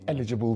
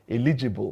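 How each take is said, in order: First: The stress is on the first syllable. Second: The stress is not on the first syllable. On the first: The speaker calls it right. "Stress on first syllable" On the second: The speaker calls it wrong. "I used to pronounce that word as eligible"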